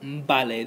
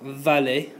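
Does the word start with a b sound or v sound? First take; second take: b sound; v sound. First: It starts with a b sound. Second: It starts with a v sound. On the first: The speaker calls it right. "but mbale, that V and the B sound the same" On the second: The speaker calls it wrong. "doesn't sound like vale"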